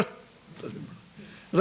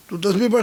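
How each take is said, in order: First: Slow, drawn-out whisper; hushed, slowed whisper of a prayer cue. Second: Said in the usual way. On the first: Acted. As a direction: breathe the words out slowly. Echoed command repeated softly.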